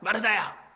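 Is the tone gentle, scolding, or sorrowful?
scolding. The name is called out sharply and harshly. The caller is rebuking her. The speaker calls it wrong. "꾸짖는 모습이셨을까요? ... 이랬을까요?"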